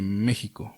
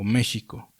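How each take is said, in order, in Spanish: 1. La consonante del medio es una 'h' áspera, gutural. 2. La consonante del medio es un 'sh' suave.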